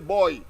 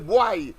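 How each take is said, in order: First: It is said with a Trinidadian accent. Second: It is said with a Jamaican accent. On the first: "we say boy" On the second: "they will say boy"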